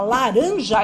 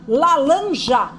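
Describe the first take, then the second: First: The middle consonant is an r sound. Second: The middle consonant is an l sound. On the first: A native Portuguese speaker says it. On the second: A speaker whose language does not separate r and l says it.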